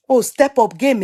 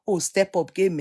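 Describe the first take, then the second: First: Pushed louder and more insistent, rising on oh; a friend nagging to level up, louder; louder insistent repeat. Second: Said in the usual way. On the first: Real, not acted. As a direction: repeat it to press the point home.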